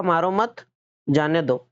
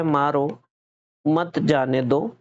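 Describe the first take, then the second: First: "मारो मत" joined, short pause, then "जाने दो"; pause after मत. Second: "मारो", clear pause, then "मत जाने दो" run together; pause after मारो. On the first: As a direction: put the comma break right after "मत", letting "जाने दो" fall away. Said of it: "यहाँ से हटा के यहाँ लगा दिया". ("मारो मत" साथ में, विराम, फिर "जाने दो") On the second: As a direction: put the comma break right after "मारो", keeping "मत" with "जाने दो". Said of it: "कॉमा यहाँ लगा दिया". ("मारो" के बाद विराम, फिर "मत जाने दो" साथ में) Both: Shown as a demonstration.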